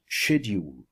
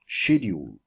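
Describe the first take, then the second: First: It is said in a British accent. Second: The same.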